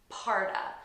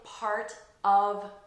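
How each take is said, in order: First: The word 'of' is reduced to 'uh' and linked. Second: The word 'of' is pronounced fully and separately. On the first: The speaker calls it right. "we pronounce it as a uh, and we connect it to the first noun" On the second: The speaker calls it wrong. "notice I'm not saying part of Germany"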